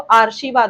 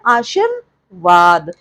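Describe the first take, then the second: First: The r sound comes after 'aa', before 'shi'. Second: The r sound comes after 'shi', before 'vaad'. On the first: The speaker calls it wrong. "तो आरशीवाद हो जाएगा। इसलिए ये पूरी तरह गलत है।" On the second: The speaker calls it right. "सही क्या है? आशीर्वाद हम बोलते हैं"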